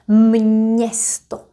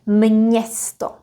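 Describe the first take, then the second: First: The word is said slowly and drawn out. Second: The word is said at normal speed.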